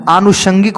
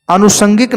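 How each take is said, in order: First: आनुषंगिक with long opening aa and sh; corrected आनुषंगिक. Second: अनुषंगिक with a plain s, "anusangik"; mispronounced अनुषंगिक. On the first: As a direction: say आनुषंगिक as "aanushangik". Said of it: "होता है". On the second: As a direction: say अनुषंगिक with s before "angik". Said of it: "नहीं होता है". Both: Shown as a demonstration.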